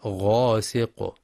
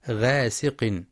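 First: "غاسق" drawn out with a dark, thick opening; correct heavy ghayn. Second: "غاسق" as ghaesiq, light front vowel; thin out the opening of "غاسق"; thin ghayn. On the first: Teacher modelling the correction, "غاسق" with heavy ghayn. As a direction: slowly say "غاسق" with heavy ghayn and back vowel. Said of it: "وإنما". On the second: Teacher showing what to avoid, "غاسق" with light ghayn. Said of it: "بالترقيق". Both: Shown as a demonstration.

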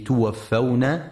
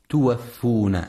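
First: توفون with the fa open, tuwaffawna; correct pronunciation. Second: توفون with the fa rounded, tuwaffuna; wrong pronunciation. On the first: Teacher shows listeners the correct reading, fa with fatha. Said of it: "لفتح الفاء وعدم ضمها". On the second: Teacher warns listeners against the wrong reading, fa with damma. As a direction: say توفون as tuwaffuna to show the mistake. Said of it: "فلا يقرأ". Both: Shown as a demonstration.

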